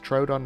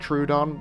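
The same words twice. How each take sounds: First: The first syllable does not sound like 'true'. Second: The first syllable sounds like the word 'true'. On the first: The speaker calls it right. "I know it's Troodon now" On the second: The speaker calls it wrong. "I have been saying Troodon because it's, it's spelt true"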